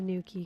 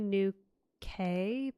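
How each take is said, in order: First: The second part sounds like 'key'. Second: The second part sounds like 'kay'. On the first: The speaker calls it right. "That's the right pronunciation" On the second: The speaker calls it wrong. "I was going to say New K"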